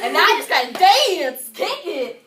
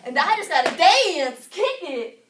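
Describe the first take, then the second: First: Big entrance cue. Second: Repeated entrance cue. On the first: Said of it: "when I say kick it". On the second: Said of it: "did you not understand me". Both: Acted.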